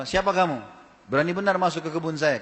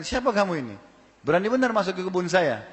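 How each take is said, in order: First: Angry demand. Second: Higher, angry challenge to the trespasser; angry demand. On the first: Garden owner angrily challenging an intruder in his garden, angry. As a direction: confront the stranger angrily. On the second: Garden owner angrily confronting the stranger, angry and raised. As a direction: demand who dares enter, angrily. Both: A narrator's reading. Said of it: "Lalu dia marah".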